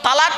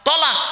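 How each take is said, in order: First: The first consonant is a plain t. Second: The first consonant is an emphatic t. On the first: It means to join or unite. The speaker calls it wrong. "শব্দটা তালাক নয়" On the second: It means to separate or divorce. The speaker calls it right. "তোয় লামানিব কফ"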